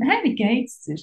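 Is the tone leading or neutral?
neutral. It is said in a plain, neutral tone.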